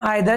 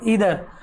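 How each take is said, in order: First: The first vowel sounds like 'eye'. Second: The first vowel sounds like 'ee'. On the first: The speaker calls it wrong. "शुरुआत से हम नाइदर, आइदर ये पढ़ रहे हैं" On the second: The speaker calls it right. "Right pronounce होता है नीदर और ईदर"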